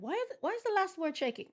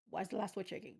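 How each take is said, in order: First: Pitched up high in disbelief; exasperated disbelief. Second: Said in the usual way. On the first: Real, not acted. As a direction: ask it like you can't believe your eyes. Exasperated at shaking text.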